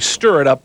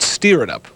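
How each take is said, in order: First: The first word has the vowel of 'stir'. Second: The first word has the vowel of 'steer'. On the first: This is the title's standard wording. "That's actually stir it up" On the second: This is how the song itself says it. "but they call it steer it up"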